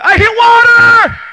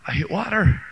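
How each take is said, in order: First: Loud, high, slow triumphant cry; joyful shout. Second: Said in the usual way. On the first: Acted. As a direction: shout out the discovery.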